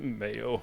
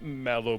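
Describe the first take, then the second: First: The middle consonant is a Y sound. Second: The middle consonant is an L sound. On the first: This is how the owner of the name wanted it said. The speaker calls it right. "the correct pronunciation that he always tried to remind others of was Mayo" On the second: This is how most people said the name. The speaker calls it wrong. "everyone called him Mallow"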